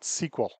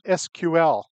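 First: It is said as one word, sequel. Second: It is spelled out as separate letters. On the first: The speaker calls it wrong. "not SQL ... not an acronym" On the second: The speaker calls it right. "I pronounce it SQL ... It is an initialism"

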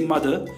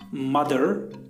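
First: The final R sound is dropped. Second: The final R sound is pronounced.

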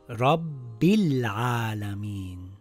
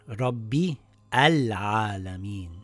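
First: The words link and the connecting vowel is dropped. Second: The connecting vowel is pronounced as a separate syllable. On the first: The speaker calls it right. "So this will read Rabbil Alamin" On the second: The speaker calls it wrong. "and not Rabbi Al Alamin"

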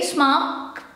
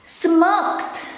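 First: It is said quickly with a weak final kt. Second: It is said with a clear, strong final kt. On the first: The speaker calls it wrong. "when I try to pronounce it in a quick way" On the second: The speaker calls it right. "Don't forget the kt"

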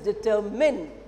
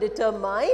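First: The last syllable is short and reduced. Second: The last syllable is a full 'mine' sound. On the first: The speaker calls it right. "it is determine... unaccented word, fully it's not pronounced" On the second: The speaker calls it wrong. "It is not determine"

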